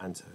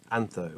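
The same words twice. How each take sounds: First: "anto" with a hard t; AN-toe, no th in "anto"; hard t pronunciation. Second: AN-tho, questioning the th in "antho"; th pronunciation. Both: Shown as a demonstration. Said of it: "is that anth or ant?".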